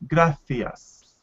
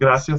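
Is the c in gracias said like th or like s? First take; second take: th; s. First: The c is said like English th. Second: The c is said like an s.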